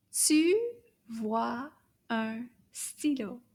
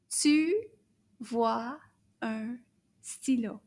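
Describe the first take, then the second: First: Tu vois un stylo slow and linked; slow and smooth. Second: Tu vois un stylo spaced word by word. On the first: Teacher's smoother second read, slow. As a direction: glide through tu vois un stylo slowly. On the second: Teacher reading the whole sentence, word by word. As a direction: read tu vois un stylo one word at a time. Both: Shown as a demonstration. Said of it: "Toute la phrase au complet".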